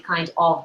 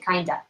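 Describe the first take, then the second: First: Both words are pronounced fully and separately. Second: The words are reduced and merged into one. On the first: The speaker calls it wrong. "we don't really say kind of" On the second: The speaker calls it right. "we say kinda in spoken English"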